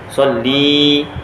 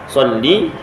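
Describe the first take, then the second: First: The final vowel is held long. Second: The final vowel is held short. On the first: The command is addressed to a woman. The speaker calls it wrong. "dua harakat jadinya" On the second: The command is addressed to a man. The speaker calls it right. "selawatlah olehmu hai lelaki"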